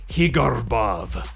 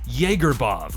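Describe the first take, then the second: First: The first sound is a Spanish H. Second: The first part sounds like Jäger. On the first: "Some people even go with Spanish" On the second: "Some people say Jaegerbov like Jägermeister"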